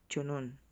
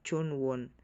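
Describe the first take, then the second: First: No w sound begins the last syllable. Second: A w sound begins the last syllable. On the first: The speaker calls it right. "laging silent W" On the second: The speaker calls it wrong. "Hindi siya Chonwon"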